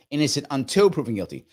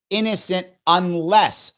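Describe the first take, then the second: First: Said in the usual way. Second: Slow, louder "unless" drawn out as the correction; stress on unless. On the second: Shown as a demonstration. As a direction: lean hard on "unless", slowly. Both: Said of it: "No, innocent unless".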